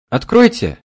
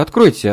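First: Put-on high young girl's voice, loud; young girl calling. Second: Put-on whining girl. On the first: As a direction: call out high like a young maid. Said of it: "голос молодой девушки". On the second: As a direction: whine откройте like a begging young girl. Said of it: "заныла горничная". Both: A narrator's reading.

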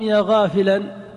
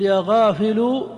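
First: يا غافلا with the last sound said as ghafilan, ending in an; correct -an ending. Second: يا غافل with the last sound said as ghafilu, ending in u; wrong ending -u. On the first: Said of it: "ينصب". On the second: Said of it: "أم". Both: Shown as a demonstration.

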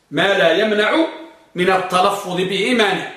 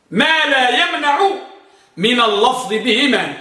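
First: Said in the usual way. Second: Higher, slow phrase-by-phrase dictation; slow raised dictation. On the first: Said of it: "repeats rule at normal pace". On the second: Shown as a demonstration. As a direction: dictate the rule slowly for writing down. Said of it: "سجلوا ضابطه".

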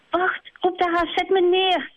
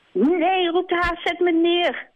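First: Much higher, scared hare calling out; panicking hare. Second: Much higher, scared hare crying out; panicking hare. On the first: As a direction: cry out to be put down. Haas panicking in flight. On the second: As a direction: shout to be put down. Haas panicking. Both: Acted.

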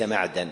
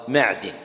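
First: معدن said maʕdan, with fatha on the dal; wrong form معدن as maʕdan; common mistake. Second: معدن said maʕdin, with kasra on the dal; معدن with an i sound, maʕdin; correct pronunciation. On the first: Teacher shows students the common error: معدن as maʕdan. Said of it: "هذا لحن منتشر". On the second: Teacher gives students the correct vowel: معدن as maʕdin. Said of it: "لازم كسرة". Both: Shown as a demonstration.

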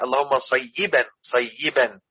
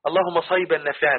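First: صيبا as "say-yi-ban", doubled ya drawn out; corrected pronunciation. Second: صيبا as a quick "sayb-an", single ya; mispronounced صيبا. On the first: Shown as a demonstration. Teacher correcting the sheikhs' version, careful pronunciation. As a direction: give صيبا three distinct syllables, "say-yi-ban". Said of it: "لا، هي". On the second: Retold or imitated. Teacher quoting how some sheikhs say it, mispronounced. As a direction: clip the middle of صيبا to give "sayban". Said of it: "والدعاء والشيوخ يقول لك إيه".

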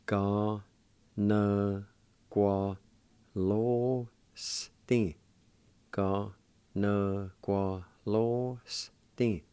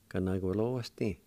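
First: Very slow teaching demo of every syllable. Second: Said in the usual way. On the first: Shown as a demonstration. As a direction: drag out each syllable, separated. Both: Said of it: "and it's pronounced like this".

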